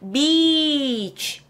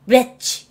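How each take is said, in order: First: The vowel is long and pushed out. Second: The vowel is short and clipped. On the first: It means a seaside shore. The speaker calls it right. "be에서 소리를 밀어주셔야 돼요. 자, 밀어서 갑니다" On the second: It sounds like a swear word. The speaker calls it wrong. "beach 이러면 안 돼요. 욕돼요"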